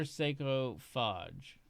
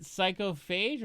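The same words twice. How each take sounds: First: Psychophage ending like "fahj"; alternative pronunciation. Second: Psychophage ending like "fayj"; first pronunciation. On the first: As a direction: say Psychophage with an "ah" in the last syllable. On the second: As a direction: say Psychophage with a long A in the last syllable. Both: Shown as a demonstration. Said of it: "Is it Psychophage or Psychophage?".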